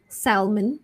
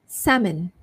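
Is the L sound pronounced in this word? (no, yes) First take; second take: yes; no. First: The L sound is pronounced. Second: The L sound is silent. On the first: The speaker calls it wrong. "previously you might have thought it's salmon" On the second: The speaker calls it right. "silent L"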